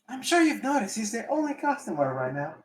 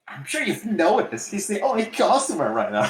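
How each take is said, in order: First: It is said in a timid, mousy voice. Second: It is said in a rebellious teen angst voice.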